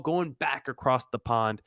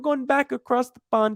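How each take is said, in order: First: It is said in his normal American accent. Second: It is said in an attempted British accent. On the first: "If I could do a British accent, I would have right there" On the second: "That's my best uh, British accent"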